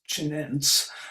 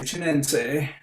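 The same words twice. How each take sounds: First: The final vowel is left silent. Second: The final vowel is clearly pronounced. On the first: The speaker calls it wrong. "even if it looks like it should be just chinense" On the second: The speaker calls it right. "always pronounce that let that final vowel"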